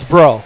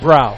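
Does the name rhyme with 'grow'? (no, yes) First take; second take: yes; no. First: The name rhymes with 'grow'. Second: The name does not rhyme with 'grow'. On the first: The speaker calls it right. "It is Bro" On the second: The speaker calls it wrong. "Not Brow"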